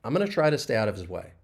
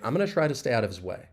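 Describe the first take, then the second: Both takes have the same delivery.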